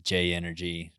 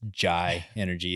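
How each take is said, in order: First: The first word sounds like 'jay'. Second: The first word sounds like 'jai'. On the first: The speaker calls it right. "it is J Energy" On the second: The speaker calls it wrong. "Not to be confused as Jai Energy"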